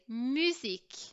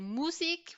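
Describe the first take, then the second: First: The first vowel is a rounded French u. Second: The first vowel is an oo sound. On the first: The speaker calls it right. "we would say musique" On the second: The speaker calls it wrong. "We wouldn't say musique"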